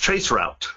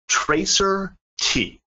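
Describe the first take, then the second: First: The word is said as trace route. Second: The word is said as tracer tee. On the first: The speaker calls it right. "It's traceroute" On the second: The speaker calls it wrong. "I'm going to pronounce it the way he pronounced it"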